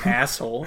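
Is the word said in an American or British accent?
American. It is said in an American accent, like asshole.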